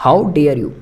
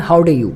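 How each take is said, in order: First: "dare" said in full with the r, How dare you; full "dare", not "de"; correct pronunciation. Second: "dare" clipped to "de", heard as How do you; the common mistake: rush "dare" into "do"; wrong pronunciation. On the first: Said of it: "डेयर होता है". (dare को पूरा "डेयर" बोलें) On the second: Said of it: "ऐसे बोल जाते हैं जल्दी जल्दी में". (dare को जल्दी में "डे" बोलना) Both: Shown as a demonstration.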